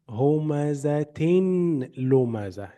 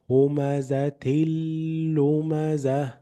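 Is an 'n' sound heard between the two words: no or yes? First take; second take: yes; no. First: An 'n' sound is heard between the words. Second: No 'n' sound is heard between the words. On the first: The speaker calls it wrong. "what you should not say" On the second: The speaker calls it right. "There is no nasal sound"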